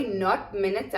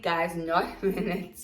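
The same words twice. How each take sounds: First: Said in the usual way. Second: Slow, stressing not with a small laugh; slow emphatic repeat. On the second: Shown as a demonstration. Teacher repeating her correction to students, slow and emphatic. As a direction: hammer the not home, slowly, for the class. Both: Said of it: "I repeat".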